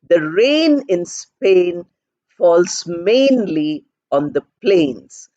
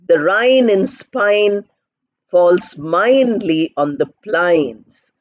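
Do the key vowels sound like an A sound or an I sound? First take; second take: A sound; I sound. First: The key vowels are said as A sounds. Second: The key vowels are said as I sounds. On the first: The speaker calls it right. "Then she corrects it by saying" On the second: The speaker calls it wrong. "That is how she pronounces because she doesn't know how to pronounce"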